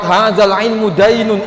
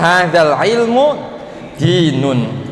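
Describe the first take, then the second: First: The last word's first vowel sounds like 'ai'. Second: The last word's first vowel sounds like 'ee'. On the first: Knowledge is a debt. The speaker calls it wrong. "jangan fathah. Kalau fathah repot" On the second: Knowledge is religion. The speaker calls it right. "maka dibacanya kasroh"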